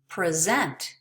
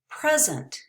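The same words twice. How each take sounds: First: The stress is on the last syllable. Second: The stress is on the first syllable. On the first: It is a verb. "it changed to the last syllable when it became a verb" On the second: It is a noun or adjective, like a gift. "The stress is on the first syllable in most two-syllable nouns"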